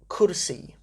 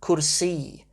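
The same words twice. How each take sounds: First: The last vowel carries no extra stress. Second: The last vowel is stressed a bit more. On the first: It simply means a chair. "to be a chair" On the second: It is the genitive form. "make a bit more effort to make sure it's the e that you're stressing"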